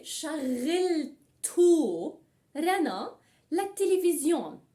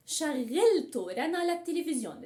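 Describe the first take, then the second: First: Word by word, with long pauses. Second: Said in the usual way. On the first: Shown as a demonstration. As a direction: break the sentence up for learners. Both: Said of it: "Then I can say".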